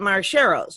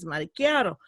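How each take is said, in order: First: The double C is said as a 'ch' sound. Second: The double C is said as a 'k' sound. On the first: The speaker calls it wrong. "everybody called it Marcheros. I'm like, that's not how it's pronounced" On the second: The speaker calls it right. "It's Maricchiato"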